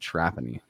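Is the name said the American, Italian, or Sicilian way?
American. The name is said with an American pronunciation. This is the family's Americanized version of the name. "I grew up as Trapani. That was what my family said"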